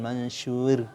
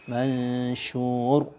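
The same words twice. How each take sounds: First: The final r is pronounced light and thin. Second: The final r is pronounced heavy and full. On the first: The speaker calls it wrong. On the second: The speaker calls it right.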